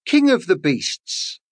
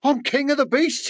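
First: Said in the usual way. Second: Much higher, swelling boast of a king; proud lion. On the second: Acted. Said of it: "he thought".

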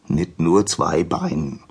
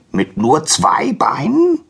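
First: Said in the usual way. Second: High, drawn-out donkey question; incredulous, high and slow; astonished donkey. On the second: Acted. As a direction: stretch it in disbelief, rising at the end. Donkey astonished, echoed by Prometheus.

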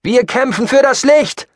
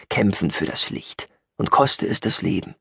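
First: Loud, high battle cry; fervent call. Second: Understated, unimpressed recitation of a slogan; dismissive echo. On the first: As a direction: shout it from the crowd. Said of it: "kam noch ein einzelner Ruf hinterher". (lauter, hoher Kampfruf) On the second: Eye-rolling echo of the slogan. (unbeeindruckt, leicht abfällig) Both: Acted.

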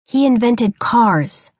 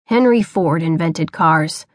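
First: Slow, lightly voiced boy explaining. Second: Lower, slow hint of a stern father; retort. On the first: Boy explains to his father, slow and patient. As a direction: patiently spell it out to Pa. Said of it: "he explained". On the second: Father corrects his son, low and slow. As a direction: put him right with a low, slow retort. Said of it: "he retorted".

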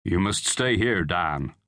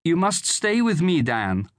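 First: Low-key, steady father; father's voice. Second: High-pitched woman's appeal; pleading mother. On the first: Father telling son to stay home, steady. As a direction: instruct the son, falling lower at the end. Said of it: "said his father". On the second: Mother begging son to stay with her, pleading. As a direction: implore him as an anxious mother. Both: A narrator's reading.

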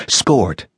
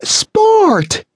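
First: Said in the usual way. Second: Much higher, louder shrill cry of Sport!; shrill shriek. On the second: A narrator's reading. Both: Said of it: "Her shrillness".

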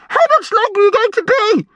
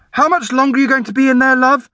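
First: Put-on urgent, high-pitched boy's demand; high agitated shout. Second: High, quick motherly call; mum's voice. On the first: Brian waiting outside the toilet, agitated. Brian pestering through the door. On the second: Norm's mum asking through the door, high motherly call. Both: A narrator's reading.

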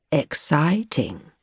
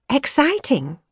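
First: Slow, sneering copy of her Yorkshire vowels; posh boy aping her Yorkshire accent; drawn-out mocking Yorkshire "Exciting?"; mock Yorkshire echo. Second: Higher, lively female voice; young woman musing aloud; young woman's voice. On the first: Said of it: "He was imitating her voice now". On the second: Acted. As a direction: voice her bright and searching. Her word that he mocks.

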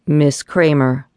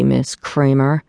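First: Slightly lower, slow and grave; a man's mildly deep, somber address. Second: Slow, grave, slightly lower, rising at the end; a boss's mildly somber reminder; deep, somber voice. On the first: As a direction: greet her gravely, unhurried, in a touch lower voice. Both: Acted. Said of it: "said a deep, somber voice".

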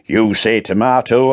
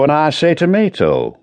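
First: "tomato" with an ah: to-MAH-to; tomato said the American way. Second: "tomato" with an ay: to-MAY-to, pitched up; tomato said the British way. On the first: Woodend mocking his boss's pedantry, saying to-MAH-to. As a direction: say "tomato" as tuh-MAH-toe. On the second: Woodend answering back with to-MAY-to, mock agreeing. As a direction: say "tomato" as tuh-MAY-toe. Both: Acted.

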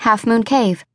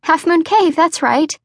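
First: Said in the usual way. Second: Higher, eager voice confirming the landmark; young woman Misty. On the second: A narrator's reading. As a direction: pitch it up, relieved and bubbly.

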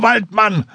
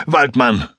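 First: Desperate screamed Waldmann; shouted Waldmann. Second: Said in the usual way. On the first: Acted. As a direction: call out Waldmann across the water. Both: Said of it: "tauchte auf und schrie".

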